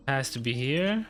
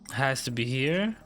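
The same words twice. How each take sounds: The two takes are said the same way.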